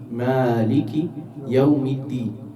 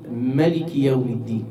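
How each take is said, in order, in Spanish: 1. La primera vocal de Maliki es larga. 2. La primera vocal de Maliki es corta. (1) "ellos lo leen Maliki Yawmiddin" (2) "Este sin la vocal larga de la alif"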